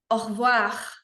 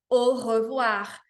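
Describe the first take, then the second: First: The e after the r is dropped. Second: The e after the r is fully pronounced. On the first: "deixar esse e caducar, fazê-lo cair e falar como um nativo" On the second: "Não tá errado, você pode falar au revoir"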